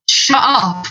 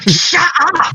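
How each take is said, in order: First: It is said with annoyance. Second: It is said very aggressively.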